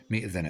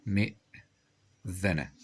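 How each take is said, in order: First: Said in the usual way. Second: Very slow مئذنة with a long break; sounded out. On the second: Shown as a demonstration. Teacher writing the word out, مئذنة in two slow pieces. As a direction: stop on the hamza in مئذنة, pause, finish.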